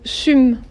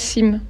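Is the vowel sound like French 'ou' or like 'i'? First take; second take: ou; i. First: The vowel is said like an 'ou' sound. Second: The vowel is said like an 'i' sound. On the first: The speaker calls it right. "Les Romains prononcent le Y comme un U" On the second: The speaker calls it wrong. "et pas sim"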